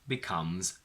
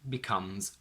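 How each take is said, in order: The two takes are said the same way.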